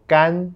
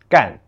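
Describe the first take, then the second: First: The syllable has a high level first tone. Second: The syllable has a falling fourth tone. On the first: "It can also be pronounced in the first tone" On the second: "To do is the fourth tone"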